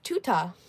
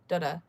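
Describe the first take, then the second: First: The word begins with a T sound. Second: The word begins with a D sound. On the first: The speaker calls it wrong. "That's how they pronounce it" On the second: The speaker calls it right. "But it's actually, in our language"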